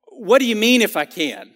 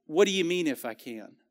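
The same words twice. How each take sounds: First: Sharp, irritated question, a bit louder; mildly irritated Jesus asking. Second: Soft, compassionate question, quieter; tender, caring question; softer. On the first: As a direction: snap the question like he's insulted. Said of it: "Like he's a little bit irritated". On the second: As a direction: gently lead him to think. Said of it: "I feel like it was softer". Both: Shown as a demonstration.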